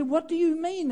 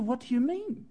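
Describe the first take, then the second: First: Higher, indignant what do you mean; asking back in hurt disbelief; baffled young man's question. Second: Said in the usual way. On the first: Retold or imitated. Young [name] asks the elder what he means, baffled. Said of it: "and I said". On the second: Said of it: "And I said".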